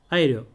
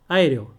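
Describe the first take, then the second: No difference in how they are said.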